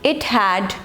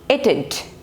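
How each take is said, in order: First: Two full words are said separately. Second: The words merge into one contracted form.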